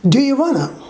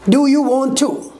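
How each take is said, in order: First: Want to is shortened and run together. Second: Want to is said fully as two words.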